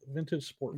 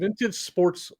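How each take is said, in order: First: The word ends without any S sound. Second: The word ends with an audible S sound. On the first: The speaker calls it right. "it's a silent S" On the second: The speaker calls it wrong. "no, I say sports"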